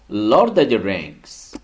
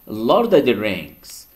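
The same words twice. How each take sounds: First: The word 'of' is reduced to 'a'. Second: The word 'of' is reduced to 'a'.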